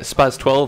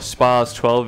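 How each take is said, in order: First: The name is said the common anglicized way. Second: The name is said the original, stricter way. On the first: The speaker calls it wrong. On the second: The speaker calls it right.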